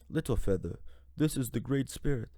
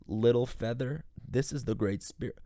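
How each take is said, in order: First: It is said in a put-on accent. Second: It is said in the speaker's ordinary voice.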